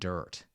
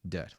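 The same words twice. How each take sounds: First: The vowel has an r-colored, curled-tongue sound. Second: The vowel is a plain uh with no r. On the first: The speaker calls it wrong. "not dirt" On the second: The speaker calls it right. "Get rid of the rolled tongue"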